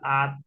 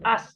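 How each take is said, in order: First: The syllable ends with a t sound. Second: The syllable ends with an s sound. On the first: The speaker calls it right. "Maka dibacanya at" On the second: The speaker calls it wrong. "Bukan as nih"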